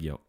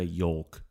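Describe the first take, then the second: First: The L sound is silent in the word. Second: The L sound is pronounced in the word. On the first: The speaker calls it wrong. "Don't say yolk for egg yolk" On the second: The speaker calls it right. "Do say yolk"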